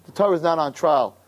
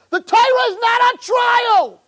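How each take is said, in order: First: Said in the usual way. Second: High, loud shouted preaching; fiery shout. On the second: Real, not acted. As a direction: cry out The Torah is not on trial. Preacher's climax declaration.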